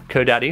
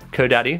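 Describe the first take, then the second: First: The name is said with a British English pronunciation. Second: The name is said with a British English pronunciation.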